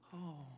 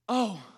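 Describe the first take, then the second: First: It is a small, restrained exclamation. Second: It is a loud, intense exclamation.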